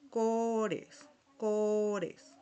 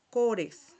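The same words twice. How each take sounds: First: Cores said slowly, KO-res, tapped r; Portuguese pronunciation. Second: Cores said as KO-res with a tapped r; Portuguese word. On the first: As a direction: model Cores, Cores for the class. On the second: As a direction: say cores crisply. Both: Shown as a demonstration. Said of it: "tenemos un ejemplo".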